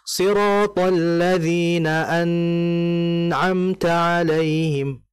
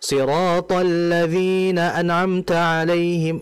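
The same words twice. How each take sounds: First: The n sound is held far too long. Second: The n sound is cut off too quickly. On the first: "Atau lama. ... itu salah" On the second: "itu terlalu cepat"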